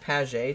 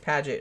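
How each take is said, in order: First: The name has no 'dj' sound in the middle. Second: The name has a 'dj' sound in the middle. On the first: "It looks like Paget to me" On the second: "Paget I would think would have a D in it"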